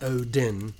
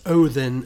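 First: The middle consonant is a plain d sound. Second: The middle consonant is a soft th sound. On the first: The speaker calls it wrong. "not a D" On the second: The speaker calls it right. "It's Odin, spelled with a F"

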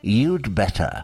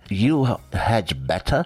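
First: The word 'had' is shortened to a 'd' sound. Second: The word 'had' is said in full. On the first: "you can contract" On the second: "Instead of saying you had better"

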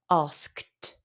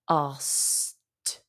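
First: The K sound is pronounced before the T. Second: The K sound is dropped, leaving S and T. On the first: "We've got sk-t" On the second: "we often don't pronounce the K in this case"

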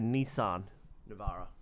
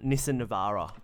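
First: It is said in an American accent. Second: It is said in an Australian accent.

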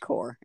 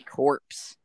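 First: The word ends in 'r' with no 'ps' sound. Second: The word ends with a 'ps' sound. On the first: The speaker calls it right. "It's corps" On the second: The speaker calls it wrong. "Say corpse"

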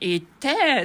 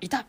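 First: It is shouted loudly in a thuggish tone. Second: It is a small, short, quiet yelp.

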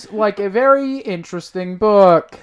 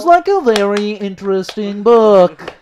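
First: It is said in his normal voice. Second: It is said imitating Trisha Takanawa's voice.

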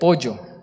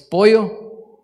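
First: The double L is clearly pronounced. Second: The double L is dropped, Guatemalan style.

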